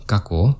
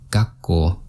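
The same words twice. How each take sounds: First: There is no short stop after 'ga'. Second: There is a short stop after 'ga'. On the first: The speaker calls it wrong. "So this is wrong" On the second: The speaker calls it right. "there's a little stop after ga and ko"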